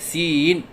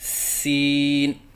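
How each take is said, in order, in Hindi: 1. आवाज़ शब्द में ऊपर-नीचे डगमगाती है। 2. आवाज़ पूरे शब्द में स्थिर रहती है।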